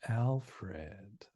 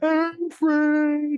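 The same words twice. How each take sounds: First: The name is said softly and sweetly. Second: The name is yelled out harshly. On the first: The caller is being affectionate. "she says it in a nice way" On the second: The caller is scolding and shaming him. "stepmother would yell out the window"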